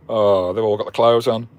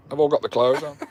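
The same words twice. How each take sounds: First: Said in the usual way. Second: Laughing. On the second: Real, not acted. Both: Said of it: "I've got tears rolling down my eyes".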